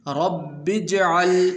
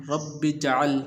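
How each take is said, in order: First: اجْعَلْ with silent jim joined; correct reading. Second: اجْعَلْ with a vowel on the jim; wrong reading. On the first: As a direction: join the sukun jim in اجْعَلْ smoothly. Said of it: "ملا کر پڑھیں گے". (جیم ساکن کے ساتھ اجْعَلْ) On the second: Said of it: "اس طرح نہیں پڑھنا". (غلط: جیم پر زبر کے ساتھ) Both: Shown as a demonstration.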